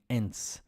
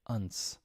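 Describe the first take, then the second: First: The ending has a full 'e' vowel. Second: The ending has a reduced 'uh' vowel. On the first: The ending is read as it is spelled. The speaker calls it wrong. "from a transparent point of view, like Spanish" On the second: This is how the ending really sounds. The speaker calls it right. "really the two sound like unts"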